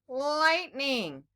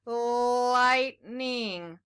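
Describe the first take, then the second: First: "lightning" joined up, quicker, with a lightly held l; blended word. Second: "Lightning" stretched slowly, long l, gap before ning; syllable by syllable. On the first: Teacher putting syllables together for children, blended word. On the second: Teacher putting syllables together for children, syllable by syllable. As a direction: draw out "Lightning" in two separate syllables. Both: Shown as a demonstration. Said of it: "Can we put it together".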